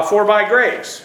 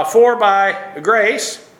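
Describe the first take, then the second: First: Said in the usual way. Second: "For by grace" drawn out very slowly, each word weighted; emphatic Greek reading. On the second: Shown as a demonstration. Preacher stressing the Greek text to his congregation, very slow "For by grace". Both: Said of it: "here it's even more emphatic in the Greek".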